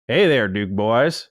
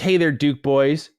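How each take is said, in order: First: It is said in a thick Southern accent. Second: It is said in a plain, neutral accent. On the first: The speaker calls it right. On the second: The speaker calls it wrong.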